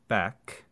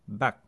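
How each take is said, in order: First: The final K is aspirated and released. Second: The final K is cut off without release.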